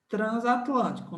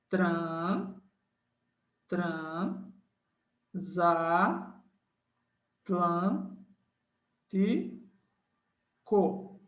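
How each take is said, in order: First: Said in the usual way. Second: "tran- za- tlan- ti- co" split into syllables with pauses between. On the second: Shown as a demonstration. Teacher showing students the syllable split, syllable by syllable. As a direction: chop transatlântico into its syllables, pausing after each. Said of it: "Então, fica, ó".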